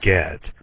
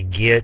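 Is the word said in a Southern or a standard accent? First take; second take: standard; Southern. First: It is said with a standard, non-Southern accent. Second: It is said with a thick Southern accent.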